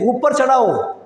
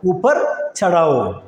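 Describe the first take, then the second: First: Said in the usual way. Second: ഊപ്പർ ചടാവോ slowly, each syllable drawn out; slow repeat. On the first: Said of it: "മുകളിൽ കയറ്റി എന്ന് പറയണം". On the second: Shown as a demonstration. Teacher slowly repeats ഊപ്പർ ചടാവോ for the class.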